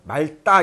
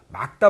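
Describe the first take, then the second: First: The cluster is said with an L sound. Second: The cluster is said with a K sound. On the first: "말다 이런 사람도 있고" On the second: "뒤에 것이 발음된다 ... 막다 이렇게 돼야 된다"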